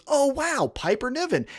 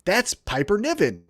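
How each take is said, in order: First: A little higher, softer, faux wonder; hammed-up dawning awe; mock amazed. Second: Said in the usual way. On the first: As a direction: play the newcomer suddenly impressed. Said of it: "Jimmy Smith goes".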